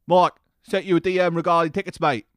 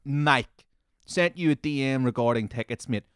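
First: Loud, higher mock London accent; mocking London-accent impression. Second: Said in the usual way. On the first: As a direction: put on a cheeky Londoner's accent, loudly. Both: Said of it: "it fits into the London accent too perfectly".

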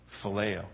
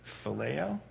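First: "phileo" soft and low, falling at the end; subdued answer. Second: "phileo" as a soft, rising question. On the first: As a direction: answer "phileo" quietly, as a settled statement. Peter answers the question. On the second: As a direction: ask "phileo" quietly, lifting the end. Jesus' third question to Peter. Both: Acted.

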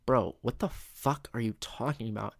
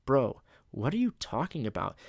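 First: "fuck" punched for extra oomph; emphasis on the cuss. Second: Said in the usual way. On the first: Shown as a demonstration. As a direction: lean hard on "fuck" in an incredulous question. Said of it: "cussing just adds the right emphasis".

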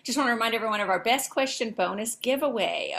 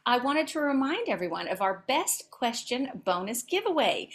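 First: Quick, hurried false start; rushed first take. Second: Said in the usual way. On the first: Shown as a demonstration. Host's flubbed first try, rushed. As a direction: rattle it off too fast. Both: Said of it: "starting over".

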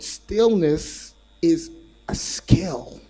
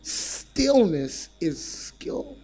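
First: Slow, weighty delivery with stress on is; stretched out, heavy emphasis on is; slow emphatic line. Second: Stillness stressed, slow and rising; stretched out, stillness stressed and rising; slow emphatic repeat. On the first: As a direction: lean on each word slowly. Preacher slows for key line. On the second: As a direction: draw out stillness and lift at the end. Preacher repeats key line. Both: Shown as a demonstration.

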